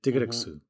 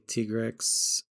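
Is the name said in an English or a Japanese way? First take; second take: Japanese; English. First: The name is said with Japanese sounds. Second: The name is said with English sounds.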